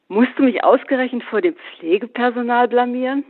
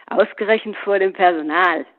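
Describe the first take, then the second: First: Said in the usual way. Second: Mocking echo. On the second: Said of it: "höhnte Paul".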